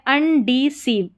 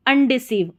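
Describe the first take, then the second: First: अनडिसीव slowly split as un, dee, seev; slow, in parts. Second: Said in the usual way. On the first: Shown as a demonstration. Teacher builds the word for learners, slow and split. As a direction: sound out अनडिसीव chunk by chunk.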